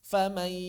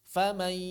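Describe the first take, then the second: First: The n blends into a nasal y sound. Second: The n blends into a nasal y sound.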